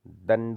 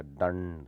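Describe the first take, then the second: First: दंड with a short plain n; wrong n sound. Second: दंड with a long curled-tongue ṇ; retroflex ण. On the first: Teacher showing the error, दंड with plain n. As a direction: say दंड with dental n. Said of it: "नहीं होता". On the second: Teacher correcting it, दंड with held retroflex nasal. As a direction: stretch the ण in दंड. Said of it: "होता है". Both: Shown as a demonstration.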